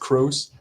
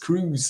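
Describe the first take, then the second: First: The name rhymes with the word rose. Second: The name rhymes with the word news. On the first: The speaker calls it wrong. "many native English speakers would pronounce my last name as Crows" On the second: The speaker calls it right. "no, it's Cruz"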